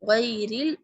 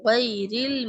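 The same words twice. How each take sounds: The two takes are said the same way.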